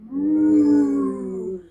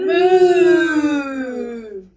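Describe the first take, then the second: First: Playful cow moo. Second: Louder, shouted moo. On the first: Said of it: "what did the cow say?". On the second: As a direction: moo out loud like a cow. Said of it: "that was a bit quiet". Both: Acted.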